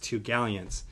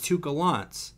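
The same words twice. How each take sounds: First: The name is said in the ordinary, plain way. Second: The name is said in a fancy, refined way. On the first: "the way that it's supposed to be pronounced" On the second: "it sounds refined"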